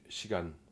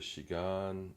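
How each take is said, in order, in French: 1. La hauteur reste stable sur la dernière syllabe. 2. La hauteur monte sur la dernière syllabe.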